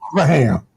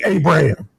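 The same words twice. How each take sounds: First: The middle consonant is a V sound. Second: The middle consonant is a B sound. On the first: The speaker calls it right. "they would say Abraham... They would translate the B to a V" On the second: The speaker calls it wrong. "They wouldn't say Abraham"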